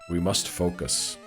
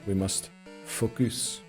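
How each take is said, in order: First: It is said in the speaker's ordinary accent. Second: It is said in a put-on French accent.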